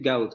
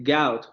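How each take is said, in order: First: Said in the usual way. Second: "gout" with a very open first vowel, like gaut; open Cockney vowel. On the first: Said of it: "en lugar de decir gout". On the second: Shown as a demonstration. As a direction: say "gout" with the diphthong opened wide toward a. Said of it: "van a decir gout". ("gout" con la primera vocal muy abierta, como gaut)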